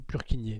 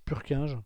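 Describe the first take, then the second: First: The name is said with Czech-style sounds. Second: The name is said with French-style sounds. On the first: This matches the man's Czech origin. "Purkinje hein, était tchèque. Et donc je pense que ça se dit plutôt Purkinje" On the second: This is how older doctors in France say it. "les vieux médecins euh, français euh, qui n'ont pas fait beaucoup d'anglais dans leur scolarité disent Purkinje"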